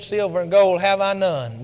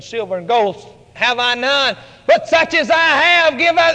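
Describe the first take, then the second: First: Low, hushed and stern; stern and quiet. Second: Rising from hushed to full voice; building firm declaration. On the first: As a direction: say it gravely and quietly. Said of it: "Peter looked at him very sternly". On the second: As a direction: build it up into a proclamation. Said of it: "all of a sudden Peter said". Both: Acted.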